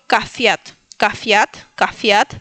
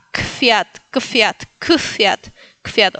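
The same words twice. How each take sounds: First: "cafiat" with a full A after K; added A. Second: "kfiat" with K running straight into F; A taken out. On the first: Teacher offers easier step, "cafiat" with added A. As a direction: say "cafiat" as ca plus Fiat. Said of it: "si no te sale, puedes decir". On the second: Teacher removes helper vowel, "kfiat" without the A. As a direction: drop the vowel between K and F in "kfiat". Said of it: "e irle sacando la A". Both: Shown as a demonstration.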